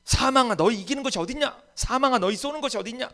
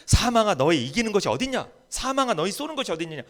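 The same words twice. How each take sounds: First: High, loud defiant cry at death; fierce shouted challenge to death; strong defiance. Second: Raised, firm recital of Paul's words; steady loud quotation; firm quote. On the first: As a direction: hurl it at death with full force. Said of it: "막 강하게 이야기하고 있죠". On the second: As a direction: say it firmly, not yet full force. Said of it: "바울이 뭐라고 이야기해?". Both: Retold or imitated.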